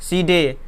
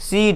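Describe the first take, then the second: First: It ends with an extra vowel after d. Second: It ends on the d with no vowel. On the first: The speaker calls it wrong. "ना कि सीडे" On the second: The speaker calls it right. "C E D सीड"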